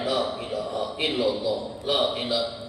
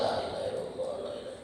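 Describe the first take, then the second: First: It is said loudly and forcefully. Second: It is said softly and quietly.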